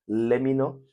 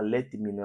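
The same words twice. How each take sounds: First: The T at the end of let is dropped. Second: The T at the end of let is heard. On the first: "o T morre" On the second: "ela não fala let me know"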